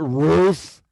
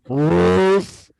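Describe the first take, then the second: First: The name is said quickly at normal length. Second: The name is stretched out with a long vowel. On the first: The name is simply suggested. "I said" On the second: The name is being mocked. "say the name back to me like three times, really slowly"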